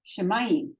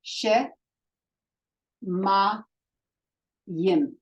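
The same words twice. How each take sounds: First: Said in the usual way. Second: "She", "ma", "yim" each set apart by a pause; syllable by syllable. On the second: Shown as a demonstration. Teacher breaking Shemayim into single syllables for students. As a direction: tap out "She", "ma", "yim" one at a time. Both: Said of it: "one vowel, one syllable".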